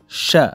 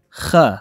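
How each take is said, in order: First: The word begins with an sh sound. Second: The word begins with a kh sound. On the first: This is the Kandahar dialect pronunciation. "به لهجه قندهار که شین هم میخوانیم او را" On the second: This is the standard Pashto pronunciation. "لهجه رسمی که همی خین خوانده میشه"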